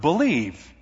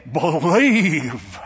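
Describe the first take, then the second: First: Said in the usual way. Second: "Believe" drawn out long and heavy, falling at the end; preacher's emphatic Believe. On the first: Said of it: "emphasize the word believe". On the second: Retold or imitated. Pastor mimicking faith preachers to the congregation, drawn-out "Believe". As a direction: stretch out "Believe" like a faith healer. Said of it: "Except they would say it".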